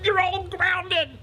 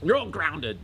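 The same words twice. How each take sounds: First: Very high, loud, drawn-out furious shriek; screamed sentence, slow and strained; shouting. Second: Higher, firm repeated pronouncement; toned-down parental shout; mild shout. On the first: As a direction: explode like a parent at breaking point. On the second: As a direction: restate the punishment with a milder yell. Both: Acted. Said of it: "He just shouts at them".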